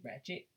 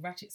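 First: RATCHET with slangy, non-English vowel; non-English accent. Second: RATCHET said in an English accent. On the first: Podcaster showing the better-sounding way, non-English accent. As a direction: say Ratchet unlike an English person. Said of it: "It sounds better when you say". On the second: Podcaster showing how it sounds wrong, English accent. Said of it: "when you say it like an English person". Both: Shown as a demonstration.

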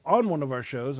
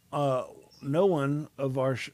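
First: Said in the usual way. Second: Stumbles into "no one" instead of "on one"; slip of the tongue. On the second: Real, not acted. Host misspeaks while introducing the next story, a slip. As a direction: trips on "no one of our sh-" and cuts off. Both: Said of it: "I said that wrong".

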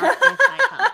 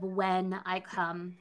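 First: "if" punched high and loud with a laugh; stress on if. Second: "when" stressed, slow and soft with a laugh. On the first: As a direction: hit "if" hard, laughing. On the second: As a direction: lean on the word "when", laughing. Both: Shown as a demonstration. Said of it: "I appreciate the use of".

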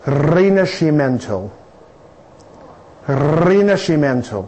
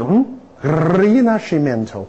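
First: Rinascimento said slowly, ree-nah-shee-men-to, rolled r; Italian pronunciation. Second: Slow showy Rinascimento, rolled r; proud Italian word. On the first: Shown as a demonstration. Lecturer teaching students the Italian word, slow and clear. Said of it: "这个词的念法叫做". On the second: Retold or imitated. Lecturer acting out greeting Italians, proudly slow. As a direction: show off the Italian Rinascimento slowly. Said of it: "一见他们面一指".

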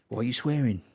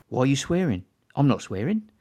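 First: A fuller, softer imitation of a menacing gangster; mock gangster menace, more in character; Ben Kingsley as Don Logan. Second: A hint of a menacing gangster; lightly voiced mock gangster, barely acted; Don Logan impression. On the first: Quoting Sexy Beast to friends as the menacing gangster. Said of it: "from, uh, Ben Kingsley". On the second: Telling how he and his wife quote Don Logan, lightly acted. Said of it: "the Don Logan bit".

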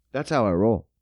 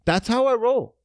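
First: Low take. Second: High take. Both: Shown as a demonstration.

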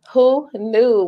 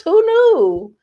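First: Said in the usual way. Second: High, loud who-knew; mock amazement. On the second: Real, not acted. Tears as an ego boost, mock amazement. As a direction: pitch it way up in mock wonder.

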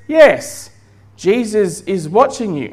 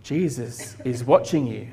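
First: Lightly voiced parrot, starting high; talking parrot. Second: A touch hushed and low, mysterious unseen voice; lightly voiced warning out of the dark. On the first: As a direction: answer as the parrot, high on the first word. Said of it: "And the parrot says". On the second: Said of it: "he heard this voice saying".

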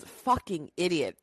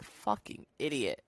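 First: Lightly voiced wife's dry put-down; a hint of Lois, flat and fed up; Lois's put-down. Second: Soft, low, dry Lois put-down. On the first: Quoting Lois calling Peter an idiot, lightly voiced. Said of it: "it's just the way she says it". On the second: Retold or imitated. Doing Lois's line when calling Corey an idiot, softly. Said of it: "I try to say it like Lois".

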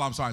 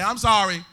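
First: Said in the usual way. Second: "I'm sorry" laut gerufen; loud I'm sorry. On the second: Shown as a demonstration. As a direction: call out "I'm sorry" to the crowd.

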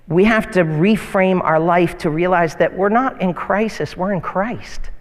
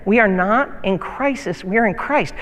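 First: "not" leaned on, "crisis" set against "Christ"; stress on NOT and CHRIST. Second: "not" pressed, each phrase weighed; stress on NOT. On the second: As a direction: repeat it as the key line, deliberate. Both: Shown as a demonstration. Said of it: "Listen to that again".

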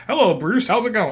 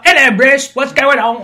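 First: Put-on higher-pitched American accent, light greeting; American-accented Sherlock. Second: Loud, high-pitched mock Cockney greeting; botched Cockney. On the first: Sherlock pops in to greet Bruce, misplaced American accent. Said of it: "I don't know why he has that voice". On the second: Sherlock greets Bruce again in loud, wrong Cockney. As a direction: overdo a bad Cockney accent, laughing. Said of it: "I know he's not Cockney either".

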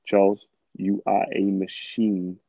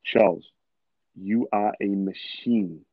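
First: Slow, deliberate, certain self-affirmation; measured, confident mantra to himself; slow self pep talk. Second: Name punched, then a very slow, certain line; slow self pep talk. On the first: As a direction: tell yourself calmly that you are unstoppable. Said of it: "But listen to how I said that". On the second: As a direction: say it like you already believe it. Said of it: "Like, listen to the tonality". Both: Shown as a demonstration.

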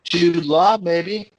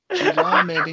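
First: Said in the usual way. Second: Squeaky high voice. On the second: Pretend. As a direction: jump way up in pitch. Repeats the suggestion, much higher.

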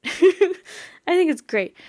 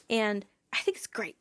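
First: High, slow, goofy repeat of the phrase; silly put-on voice. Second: Said in the usual way. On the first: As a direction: stretch it out in a cartoonish high voice.

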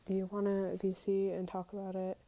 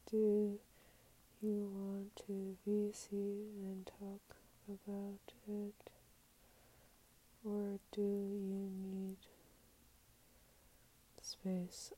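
First: Said in the usual way. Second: Very slow, drawn-out words fading soft; slow, halting murmur to yourself; typing it out. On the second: Real, not acted. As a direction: say it piece by piece as you type, trailing to a whisper. Sounding out words while typing reply.

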